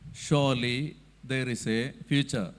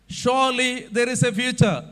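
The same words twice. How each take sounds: First: The sentence is spoken at a low pitch. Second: The sentence is spoken at a high pitch. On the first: The speaker calls it wrong. "That is low pitch" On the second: The speaker calls it right. "That is high pitch"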